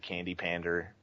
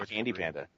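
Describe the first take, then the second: First: The last word ends with an r sound. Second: The last word ends without an r sound. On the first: The speaker calls it wrong. "if I ever hear him pronounce it Candy Pander again" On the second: The speaker calls it right. "How hard is it to say Candy Panda?"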